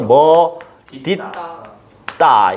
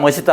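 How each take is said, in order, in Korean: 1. 두 번째 음절은 d 소리로 시작해요. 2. 두 번째 음절은 s 소리로 시작해요. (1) "음절의 끝소리 규칙 해놓고 그리고 뭐라고 해야 돼? 연음을 시켜야 돼" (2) "인간들이 하도 이걸"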